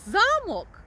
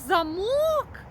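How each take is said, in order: First: The stress is on the first syllable. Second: The stress is on the second syllable. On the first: It means a castle, a building. "то маємо на увазі, що це будинок" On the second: It means a lock that closes with a key. "то це ми маємо на увазі те, що закривається на ключ"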